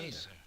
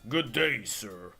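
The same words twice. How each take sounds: First: The voice is soft, gentle and quiet. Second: The voice is gruff, tough and buff. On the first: A nice, polite character is speaking. "Alexander sounds very nice and quiet" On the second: A tough, intimidating character is speaking. "Graham would go"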